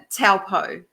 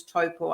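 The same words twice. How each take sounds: First: "taupo" said as TOW-po, first part rhyming with cow; "taupo" the tourists' way, TOW-po; common mispronunciation. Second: "taupo" said as TOE-paw; "taupo" the locals' way, "toe" then "paw"; local pronunciation. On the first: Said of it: "most people call it taupo". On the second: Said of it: "it's actually pronounced as". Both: Shown as a demonstration.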